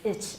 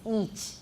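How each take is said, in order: First: The vowel is short, like in 'itch'. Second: The vowel is a long 'ee' sound. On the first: The speaker calls it wrong. "almost everybody says ich in Taiwan" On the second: The speaker calls it right. "It's long e"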